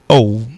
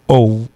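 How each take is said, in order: First: The vowel is long and drawn out. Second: The same.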